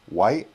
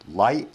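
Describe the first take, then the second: First: The word begins with a W sound. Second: The word begins with an L sound. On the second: "if you're saying light"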